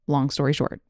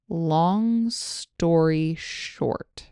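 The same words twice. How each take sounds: First: The phrase is spoken at normal conversational speed. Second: The phrase is spoken slowly and carefully. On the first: "And again at normal speed" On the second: "Here it is slowly"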